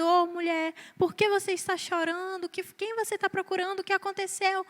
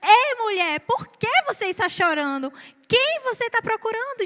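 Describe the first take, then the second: First: Soft, hushed, tender asking; a quiet, caring question to a weeping woman; gentle imagined Jesus. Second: Fuller voice, rising on quem; Jesus as read. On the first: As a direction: ask her softly, as if consoling. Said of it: "eu imaginava que Jesus tinha chegado pra ela e perguntado". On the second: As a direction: ask it openly, a touch puzzled. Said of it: "eu percebi que Jesus chegou pra ela e falou". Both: Shown as a demonstration.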